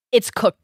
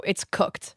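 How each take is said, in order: First: Said in the usual way. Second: Whisper. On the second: Real, not acted. Repeats the punchline whispered.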